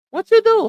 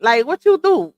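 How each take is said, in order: First: Much higher, squeaky disbelief on "you"; exasperated repeat. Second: Said in the usual way. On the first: Real, not acted. Asking the viewers, exasperated and high.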